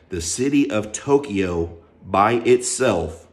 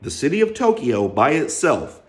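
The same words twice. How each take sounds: First: The phrase is said slowly and deliberately. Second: The phrase is said at a normal pace.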